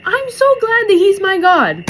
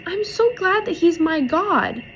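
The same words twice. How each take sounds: First: High, loud, overcome with gladness; emotional exclamation. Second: Put-on high little-girl voice at normal volume; retold little girl. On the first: Real, not acted. Moved viewer echoes the girl, loud emotional exclamation. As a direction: belt it out with heartfelt force, pitched high. Moved, repeats the girl's words herself. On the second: Little girl speaks of God, imitated high child voice. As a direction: mimic a child's high, simple gladness. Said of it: "she goes".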